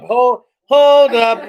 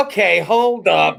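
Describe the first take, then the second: First: Weirdo voice. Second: Slow drawn out. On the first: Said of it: "Let me put some weirdo in it". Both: Shown as a demonstration.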